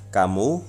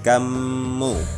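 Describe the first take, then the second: First: The middle consonant is short and single. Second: The middle consonant is held and doubled. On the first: "tidak ada tasydid, cukup ... fathah dan domah" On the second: "mimnya menjadi seolah-olah du, dua. Bunyinya menjadi kamu"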